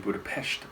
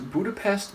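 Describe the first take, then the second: First: Budapest is pronounced the Hungarian way. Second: Budapest is pronounced the usual English way.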